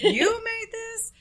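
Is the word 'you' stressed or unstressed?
stressed. The word 'you' is sharply stressed. The speaker doubts she could have cooked it. The speaker calls it wrong. "You put it on the wrong word"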